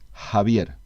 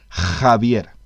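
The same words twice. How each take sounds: First: The first consonant is a soft, breathy sound. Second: The first consonant is a harsh, rasping sound. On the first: "relajarla, aspirarla, pronunciarla de una manera más suave" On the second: "La J española es un sonido que se debe pronunciar algo así como"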